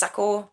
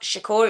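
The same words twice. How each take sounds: First: Shakur starting with a plain 's', like 'Sakur'; Shakur without the H. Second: Shakur starting with a 'sh' sound. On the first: Correcting his surname, Shakur said as 'Sakur'. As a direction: drop the 'h' so Shakur begins with 's'. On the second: Correcting his surname, Shakur said with a 'sh'. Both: Shown as a demonstration. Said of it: "It's without the H".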